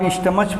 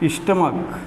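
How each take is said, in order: First: The word ends with a 'ch' sound. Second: The word ends with a 'k' sound. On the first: The speaker calls it wrong. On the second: The speaker calls it right.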